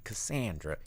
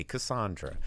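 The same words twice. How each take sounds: First: "Cassandra" with a short A as in "sand"; own pronunciation. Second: "Cassandra" with a broad AH in the middle; alternative pronunciation. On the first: Host showing how he says "Cassandra", with short A. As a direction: say "Cassandra" with a flat 'san' middle syllable. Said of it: "I say Cassandra". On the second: Host showing the other way to say "Cassandra", with broad AH. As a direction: say "Cassandra" as "kuh-SAHN-druh". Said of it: "you say Cassandra". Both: Shown as a demonstration.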